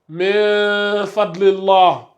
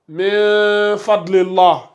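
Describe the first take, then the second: No difference in how they are said.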